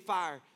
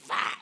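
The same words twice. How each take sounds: First: It is said in a plain, smooth voice. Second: It is said with a raspy, scratchy throat.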